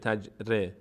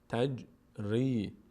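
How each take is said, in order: First: The r has no vowel after it. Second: The r is followed by an i vowel. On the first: The speaker calls it wrong. "نمیشه تج ر" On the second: The speaker calls it right. "میشه تج ری"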